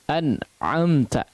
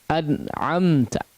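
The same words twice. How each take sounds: The two takes are said the same way.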